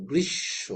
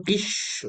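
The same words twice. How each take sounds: First: গ্রীষ্ম with a doubled ষ and no ম sound; correct reading. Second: ম said fully in গ্রীষ্ম; গ্রীষ্ম with the ম sounded out; wrong reading. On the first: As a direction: say গ্রীষ্ম as grish-sho, ম silent. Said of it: "দুইবার উচ্চারণ হবে". (সঠিক উচ্চারণ, গ্রীষ্ম এ ষ দুইবার) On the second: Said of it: "গ্রীষ্ম না". (ভুল উচ্চারণ, ম স্পষ্ট করে গ্রীষ্ম) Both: Shown as a demonstration.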